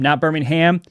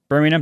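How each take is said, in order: First: The name is said the American way. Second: The name is said the British way. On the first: It names the city in Alabama. The speaker calls it wrong. "Got a lot of flack for calling it Birmingham" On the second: It names the city in the UK. The speaker calls it right. "Birmingham, not Birmingham"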